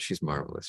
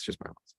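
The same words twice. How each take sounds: First: Said in the usual way. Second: "She's marvelous" repeated in a bare whisper; a soft whispered afterthought of "She's marvelous". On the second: Real, not acted. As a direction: breathe "She's marvelous" again under your breath. Repeated compliment, whispered echo.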